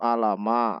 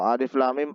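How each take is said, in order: First: The letters are run together as short syllables. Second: Each letter is read by its full name. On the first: The speaker calls it wrong. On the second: The speaker calls it right.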